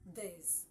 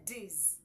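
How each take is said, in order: First: The word begins with a soft th sound. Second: The word begins with a hard d sound. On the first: The speaker calls it right. "No, it is not D. It's this" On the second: The speaker calls it wrong. "as if it is the D sound that comes from the letter"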